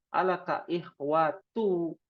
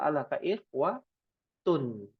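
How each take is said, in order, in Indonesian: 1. Kata terakhir diakhiri vokal u saja. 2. Kata terakhir diakhiri bunyi n yang ditambahkan. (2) "yang betul"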